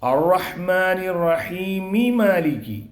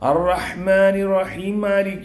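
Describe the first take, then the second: First: Rahimi is said fully before a separate malik. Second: Rahim and malik merge into a single m. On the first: The speaker calls it right. "എങ്ങനെ ഓതണം?" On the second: The speaker calls it wrong. "ഒരു മീമ് മാത്രമേ അവിടെ വരുള്ളൂ"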